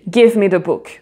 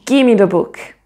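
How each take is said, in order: First: The V sound in 'give' is clearly pronounced. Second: The V sound drops out, giving 'gimme'. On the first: "on prononce bien le V" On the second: "ce V va disparaître"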